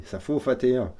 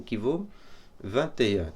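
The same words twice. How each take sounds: First: Put-on joking German accent, V turned to F; playful German-accented French, hardened consonants; mock German accent. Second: Said in the usual way. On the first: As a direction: put on a German accent, louder, "faut" for "vaut". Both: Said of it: "parfois j'ai du mal à, à perdre mon accent allemand".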